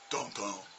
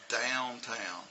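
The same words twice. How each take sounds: First: The 'ow' vowel is weak and flat. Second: The 'ow' vowel is full and strong. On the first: The speaker calls it wrong. "Not quite" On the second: The speaker calls it right. "I want them to have a strong owl sound"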